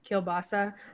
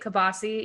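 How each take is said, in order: First: The word begins with a 'keel' sound. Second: The word begins with a short 'ka' sound. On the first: This is the standard pronunciation. "even though it's pronounced kielbasa" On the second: This is how the family says it. "we say kabasi"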